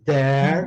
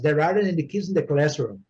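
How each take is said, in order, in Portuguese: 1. Cada palavra é dita separadamente, com pausas entre elas. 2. As palavras são ditas juntas, sem pausas, de forma suave. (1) "palavra por palavra" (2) "a diferença que é da primeira vez que eu falei e da segunda vez"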